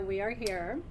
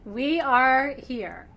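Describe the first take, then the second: First: Tip up on "are" and let it rise; stress on ARE. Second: "We" slow, loud and drawn out, the rest falling; "We are here" with "We" weighted and stretched; stress on WE. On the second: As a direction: lean hard on "We", very slowly. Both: Acted. Opening incantation of the class.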